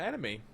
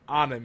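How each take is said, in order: First: The word has an English-style pronunciation. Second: The word has a Japanese-style pronunciation. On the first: The speaker calls it wrong. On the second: The speaker calls it right.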